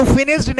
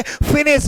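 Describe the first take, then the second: First: Final d sound on फिनिश्ड; wrong pronunciation demo. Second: Final t sound on फिनिश्ड; correct pronunciation demo. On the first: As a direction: pronounce फिनिश्ड as finishd. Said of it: "नहीं बोलना है". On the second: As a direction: pronounce फिनिश्ड as finisht. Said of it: "फिनिश्ड बोलना है". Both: Shown as a demonstration.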